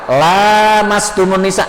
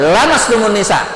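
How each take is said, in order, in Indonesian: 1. Vokal pertama dibaca panjang. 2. Vokal pertama dibaca pendek.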